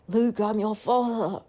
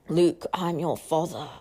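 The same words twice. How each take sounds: First: A weak imitation of a deep villain voice. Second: A fuller imitation of a deep villain voice. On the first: The speaker calls it wrong. "that was a bad impression of Darth Vader" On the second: The speaker calls it right. "let me do it again"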